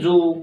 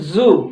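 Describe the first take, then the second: First: The word starts with a j sound. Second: The word starts with a buzzing z sound. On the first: The speaker calls it wrong. "न कि जू" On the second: The speaker calls it right. "इसको बोलते हैं जू"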